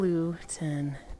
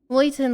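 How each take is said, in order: First: The first vowel sounds like 'oo'. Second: The first vowel sounds like 'oy'. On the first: The speaker calls it wrong. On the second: The speaker calls it right.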